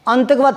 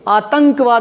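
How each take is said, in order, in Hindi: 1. नासिका ध्वनि किसी दूसरे अक्षर पर आती है। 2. नासिका ध्वनि 'ता' के ठीक बाद आती है। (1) "आतंकवाद थोड़ी बोलते हैं" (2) "आतंकवाद बोलते हैं"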